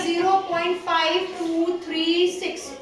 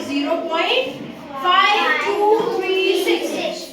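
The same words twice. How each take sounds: First: Said in the usual way. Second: "zero point five two three six" read slowly, each digit on its own. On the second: Shown as a demonstration. Teacher showing the class how to read a decimal, slow and digit by digit. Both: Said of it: "हम कैसे पढ़ेंगे?".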